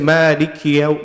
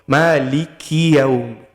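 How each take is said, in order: First: The k has no vowel before the next word. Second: The k is followed by a short i vowel. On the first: The speaker calls it wrong. "Don't make kaf into a sakin. Don't say" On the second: The speaker calls it right. "there's a kasra on the kaf"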